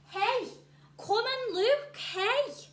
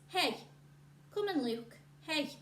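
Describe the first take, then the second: First: It is read loudly with excitement, almost shouting. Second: It is read in a flat, calm voice. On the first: "with a bit of excitement and a bit of shouting almost" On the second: "Did I read it like this?"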